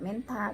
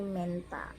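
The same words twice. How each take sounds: First: "menta" with a breath of h after the t; TH, incorrect. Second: "menta" with a plain t, men-ta; TH read as T. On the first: Teacher showing what to avoid, "menta" with an aspirated t. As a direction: say "menta" as men-tha. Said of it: "bacanya tidak menta". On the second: Teacher correcting the reading, "menta" with a clean t. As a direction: say "menta" with no h after the t. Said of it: "dibaca T". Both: Shown as a demonstration.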